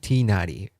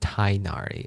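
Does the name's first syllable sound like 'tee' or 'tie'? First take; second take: tee; tie. First: The first syllable sounds like 'tee'. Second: The first syllable sounds like 'tie'. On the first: This is the intended original pronunciation. The speaker calls it right. "It's supposed to be Tinari" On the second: This is how the English dub says it. The speaker calls it wrong. "they pronounce it Tainari in, in the English dub"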